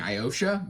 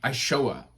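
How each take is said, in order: First: The 'sh' sound comes after the 'o' sound. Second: The 'sh' sound comes before the 'o' sound. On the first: The speaker calls it wrong. "I know that's wrong" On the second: The speaker calls it right. "it's I S H O A"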